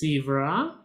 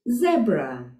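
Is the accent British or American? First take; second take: American; British. First: It is said with an American accent. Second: It is said with a British accent.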